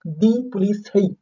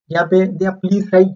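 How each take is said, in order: First: Slow, careful "दी please सही"; corrected article. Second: Mistaken "दिया" before "please"; wrong article. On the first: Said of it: "no, no, no, दी please सही". (धीमे से सही उच्चारण "दी please सही") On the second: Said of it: "no, no, no". ("दिया please सही" – गलत आर्टिकल के साथ) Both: Shown as a demonstration.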